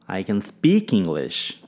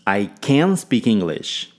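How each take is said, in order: First: The stress falls on the word speak. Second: The stress falls on the word can. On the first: The ability is speaking, not another skill. "Ênfase em speak" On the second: The speaker is truly able to do it. "Ênfase em can"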